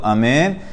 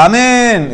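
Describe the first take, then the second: First: Said in the usual way. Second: Imitating a loud, high shouted Amén; mock shouted amen. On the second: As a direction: belt out "Amén" much higher, like someone drowning out the blessing. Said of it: "Hay veces que la gente grita". (imitando un Amén gritado y agudo)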